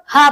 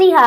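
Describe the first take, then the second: First: "हा" as an ordinary light h; normal ha. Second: "हा" as a strong throaty Arabic h; ha from its makhraj. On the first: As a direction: say "हा" with a plain h. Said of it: "पहली वाली हा normal हा है". (साधारण "हा", हल्का "ह") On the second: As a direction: push "हा" out from mid-throat. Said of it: "मखरज की अदायगी के साथ". ("हा" हलक़ से, मख़रज के साथ) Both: Shown as a demonstration.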